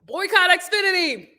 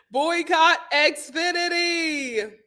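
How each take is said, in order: First: Said in the usual way. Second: Drawn-out chant; mock rallying cry; slow emphatic. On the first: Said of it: "first take". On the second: Shown as a demonstration. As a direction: slowly spell out the boycott. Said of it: "repeats slow emphatic".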